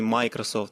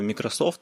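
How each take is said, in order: First: The stress is on the first syllable. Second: The stress is on the last syllable. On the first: The speaker calls it wrong. "а не Microsoft" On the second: The speaker calls it right. "и с ударением именно на soft"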